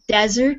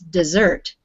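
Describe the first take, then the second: First: The stress is on the first syllable. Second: The stress is on the second syllable. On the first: It is used as a noun. "A desert is a noun" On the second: It is used as a verb. "when you say it as a verb"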